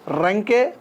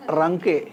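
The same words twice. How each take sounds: First: రంకే with strong trilled r, like "rrenke", rising; old hard R. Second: Said in the usual way. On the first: Shown as a demonstration. Teacher showing the old letter, రంకే with hard r. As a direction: roll the r hard opening రంకే. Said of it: "తేడా ఇది". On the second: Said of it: "మామూలుగా".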